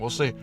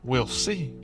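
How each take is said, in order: First: It is said quickly and in a casual, offhand way. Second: It is said in a drawn-out, dramatic, played-up way. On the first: The news is being brushed off without much interest. "very quick and very like nonchalant" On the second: The news is being treated as a big surprise. "He doesn't act it up. He doesn't play it up"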